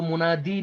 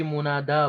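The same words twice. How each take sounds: First: मुनादी ending in a long "ee"; final long ee. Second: मुनादा ending in a long "aa"; fatha on dal. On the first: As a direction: say मुनादी with "dee" as the last syllable. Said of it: "इसको मुनादी नहीं पढ़ेंगे". (मुनादी के अंत में लंबी ई) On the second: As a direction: say मुनादा with "daa" as the last syllable. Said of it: "दाल पर फतह है". (मुनादा में दाल पर फतह, अंत में आ) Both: Shown as a demonstration.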